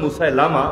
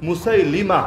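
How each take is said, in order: First: The third syllable has an 'a' vowel. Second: The third syllable has an 'i' vowel. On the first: The speaker calls it wrong. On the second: The speaker calls it right.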